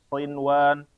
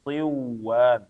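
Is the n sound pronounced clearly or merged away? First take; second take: clearly; merged. First: The n sound is pronounced clearly. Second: The n sound is merged away. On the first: The speaker calls it right. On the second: The speaker calls it wrong.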